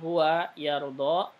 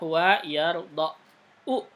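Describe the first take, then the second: First: The verb ends on a long a, without u. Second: The verb ends with an audible final u vowel. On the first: The case ending is hidden and not pronounced. "karena dia mu'tal akhir maka huwa yardo" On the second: It shows the underlying case ending. "Harusnya huwa yardo u gitu"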